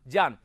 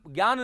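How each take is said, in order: First: It begins with j joined with y. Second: It begins without a clear j-plus-y sound. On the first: The speaker calls it right. "क्या बोलूंगा" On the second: The speaker calls it wrong. "ज्ञान ज्ञान नहीं बोलूंगा"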